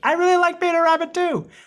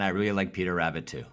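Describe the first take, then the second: First: The voice is high-pitched and thin. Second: The voice is strong and firm. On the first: The speaker calls it wrong. "without the high pitch in your voice ... as opposed to" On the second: The speaker calls it right. "You have to say it with strength behind it"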